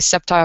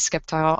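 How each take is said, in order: First: The name begins with a plain s sound. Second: The name begins with an sk sound. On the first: This is how other people say it. "I have heard people say Sceptile" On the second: This is how the speaker personally says it. "I say it as Skeptile. I'm probably not supposed to pronounce that C"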